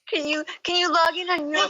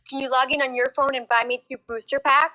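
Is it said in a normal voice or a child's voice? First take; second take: child's voice; normal voice. First: It is said in a put-on child's voice. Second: It is said in a normal adult voice.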